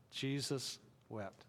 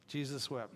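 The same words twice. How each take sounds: First: Jesus wept, drawn out slow and soft; slow solemn recitation. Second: Said in the usual way. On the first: Shown as a demonstration. Pastor models the verse for the congregation, slow and hushed. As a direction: lay each word down slowly and gravely. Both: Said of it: "Say it with me".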